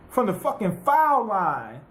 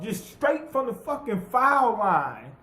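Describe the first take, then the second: First: Said in the usual way. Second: Slow, leaning on "foul line"; emphatic repeat. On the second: Real, not acted. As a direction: drag out "foul line" to sell the disbelief.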